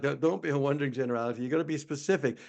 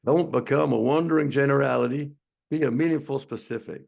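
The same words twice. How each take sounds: First: Said in the usual way. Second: Attempted Southern accent, lightly put on; bad Southern accent. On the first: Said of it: "but he talked about". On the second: Shown as a demonstration. Webinar host attempting Zig Ziglar's quote, bad Southern accent. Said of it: "I'm gonna try to do a Southern accent".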